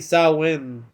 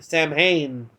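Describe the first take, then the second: First: The middle h sound is silent. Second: The middle h sound is pronounced. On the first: The speaker calls it right. "It's actually Samhain, which the H is silent" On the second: The speaker calls it wrong. "he pronounced it wrongly"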